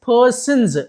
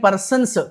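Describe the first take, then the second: First: The final sound is a buzzing z. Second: The final sound is a hissing s. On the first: The speaker calls it right. "జా పలుకుతాం" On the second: The speaker calls it wrong. "పర్సన్స్ కాదు. సా పలకమండి"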